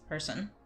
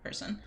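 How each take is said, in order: First: It is pronounced with English sounds. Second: It is pronounced with German sounds.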